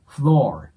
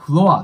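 First: The word ends in a curled-tongue r sound. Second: The word ends in a plain open 'ah' vowel. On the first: The speaker calls it right. "下を巻きながらr の音を出すだけのイメージです" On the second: The speaker calls it wrong. "日本語で言うと、floor っていう感じで、あーになるんですけど"

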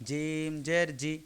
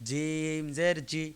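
No difference in how they are said.

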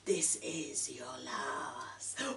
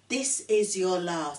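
First: It is said in a put-on, frosty, icy voice. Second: It is said in a plain, ordinary voice.

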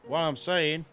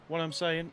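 First: It is read in a put-on country accent. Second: It is read in the speaker's plain accent.

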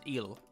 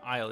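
First: The word begins with an 'ee' sound. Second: The word begins with an 'eye' sound. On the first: The speaker calls it right. "it's Ile" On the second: The speaker calls it wrong. "it's not Isle"

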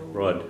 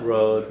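First: The vowel is short, between 'oo' and 'oh'. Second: The vowel is a long 'oh' sound. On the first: The speaker calls it right. "Kind of a shorter sound and kind of between a U and an O" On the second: The speaker calls it wrong. "Not road"

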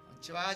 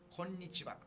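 First: The opening 'ko' is said without extra force. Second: The opening 'ko' is said with extra force. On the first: The speaker calls it wrong. "じゃなくて" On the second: The speaker calls it right. "こうに力を込める"

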